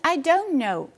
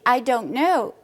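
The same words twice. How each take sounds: First: The t in don't is dropped. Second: The t in don't is pronounced. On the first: "The T is out" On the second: "I don't know becomes"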